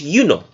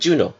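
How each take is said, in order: First: The word begins with a Y sound. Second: The word begins with a J sound. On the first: This is the original way of saying it. "the original pronunciation of Juno was Juno. All right? Juno with an I" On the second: This is the modern way of saying it. "even though we're saying Juno"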